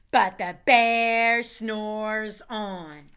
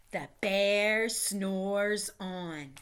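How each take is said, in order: First: Slow, emphatic storybook refrain; drawn-out refrain. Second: Slow, sleepy storybook refrain; drawn-out refrain. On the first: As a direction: lean on "But", then drag it out. Refrain read slowly, louder. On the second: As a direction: stretch it like a drowsy bear. Refrain read slowly, drawn out. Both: A narrator's reading.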